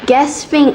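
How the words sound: It is said the American way.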